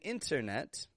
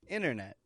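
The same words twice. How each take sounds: First: The t after n is clearly pronounced. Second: The t after n is dropped, like inner. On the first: "I wasn't saying internet" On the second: "but inner"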